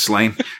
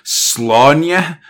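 First: The name is said in a simplified pronunciation. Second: The name is said in its original pronunciation. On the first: "but I'm not going to do that" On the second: "Technically, the way you pronounce it is"

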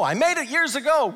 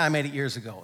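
First: It is said in an excited, lively tone. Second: It is said in a flat, offhand tone. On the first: The decision is still a source of joy. The speaker calls it right. "It's like, no" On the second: The decision feels like old, unimportant news. The speaker calls it wrong. "I hate it when people say it like that"

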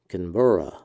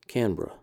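First: The word is said in full. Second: The word is said shortened and quicker.

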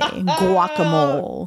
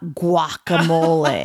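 First: The word starts with a soft W-like sound. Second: The word starts with a hard G sound. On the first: The speaker calls it right. "the G is not a hard G" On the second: The speaker calls it wrong. "I'm going to say it. I'm going to make Vicky's skin crawl"

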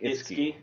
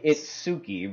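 First: The name is said the way natives say it. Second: The name is read literally as it is spelled. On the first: The speaker calls it right. "but it's pronounced like Itsuki" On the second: The speaker calls it wrong. "it looks like Itsuki"

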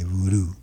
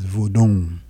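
First: It is said the way Americans say it. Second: It is not said the American way.

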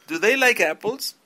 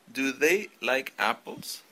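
First: The words run together without breaks between them. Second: Each word is said separately, one by one. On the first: The speaker calls it right. "Vamos a unir el sonido de el do y el does con el sujeto" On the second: The speaker calls it wrong. "de forma no natural, es decir, palabra por palabra"

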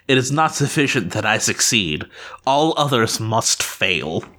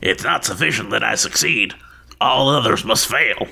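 First: It is said in a normal voice. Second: It is said in a put-on dwarf voice.

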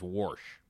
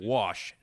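First: It is said in a Southern Illinois accent. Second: It is said in a standard accent.

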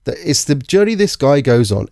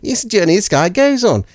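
First: It is said in the speaker's ordinary accent. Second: It is said in an Australian accent.

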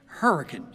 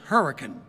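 Both takes have the same delivery.

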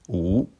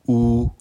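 First: The pitch rises from middle to high. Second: The pitch stays high and level. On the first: "Deuxième ton" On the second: "Premier ton"

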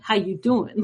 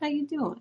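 First: The greeting sounds irritated and annoyed. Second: The greeting sounds flirty and charmed. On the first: The speaker is angry. "If I'm pissed, I'm like" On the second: The speaker is attracted to someone. "somebody cool walks by, I'm like"

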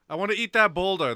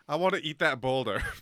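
First: It is said in a Donkey voice. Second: It is said in a Shrek voice.

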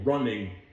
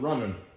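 First: The ending is said as a full -ing. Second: The ending is clipped to -in. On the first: The speaker calls it right. "running instead of running" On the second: The speaker calls it wrong. "your ing problems"

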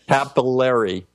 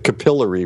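First: It is said the American way. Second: It is said the British way. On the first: "we pronounce it capillary" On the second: "as you probably say, you were raised through an English system of teaching"

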